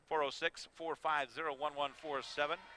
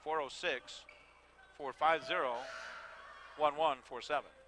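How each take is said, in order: First: The number is read at a fast pace. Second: The number is read at a slower pace. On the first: The speaker calls it wrong. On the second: The speaker calls it right.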